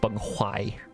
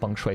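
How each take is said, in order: First: The second syllable begins with an 'h' sound. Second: The second syllable begins with an 'sh' sound. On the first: The speaker calls it right. "It's Beng Huai" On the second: The speaker calls it wrong. "it's not Beng Shui"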